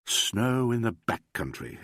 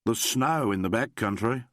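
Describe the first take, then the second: First: Slower, wondering echo; exclaiming. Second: Said in the usual way. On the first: A narrator's reading. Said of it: "exclaimed Alan".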